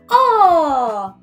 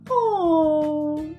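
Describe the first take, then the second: First: The sound is said in a happy voice. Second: The sound is said in a sad voice. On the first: "Can you say O in a happy voice?" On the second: "Can you say O in a sad voice?"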